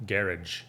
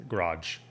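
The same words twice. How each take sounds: First: GARAGE as "GARR-idge"; British GARAGE ending in -idge. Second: GARAGE as "g'RAHJ"; American second-syllable GARAGE. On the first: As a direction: stress the first syllable of GARAGE. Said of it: "How do you like it more?". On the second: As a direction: stress a long AH in GARAGE. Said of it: "how we say it". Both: Shown as a demonstration.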